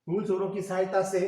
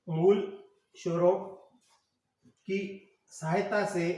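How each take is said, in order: First: Said in the usual way. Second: "मूल स्वरों की सहायता से" drawn out, with pauses between words; slow dictation. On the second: Shown as a demonstration. Dictates slowly for students writing.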